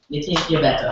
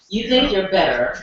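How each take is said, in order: First: It is said in a Virgin Islands accent. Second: It is said in a standard American accent. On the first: "how we would say it is" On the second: "it's entitled"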